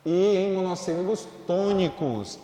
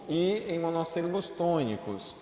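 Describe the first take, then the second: First: "E em monossílabos tônicos" loud and higher, with a strong "E"; emphatic rule. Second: Said in the usual way. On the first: Shown as a demonstration. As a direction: call out the rule firmly. ("E em monossílabos tônicos" alto e enfático)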